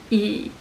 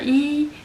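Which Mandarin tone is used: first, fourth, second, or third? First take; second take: third; first. First: The syllable is said with the third tone. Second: The syllable is said with the first tone.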